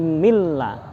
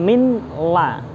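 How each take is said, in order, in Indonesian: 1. Bunyi n menyatu penuh dengan l, tanpa dengung. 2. Bunyi n dilafalkan terpisah sebelum l. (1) "tapi milla ya, tanpa dengung" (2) "bukan min la"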